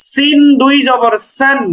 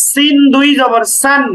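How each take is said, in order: Both takes have the same delivery.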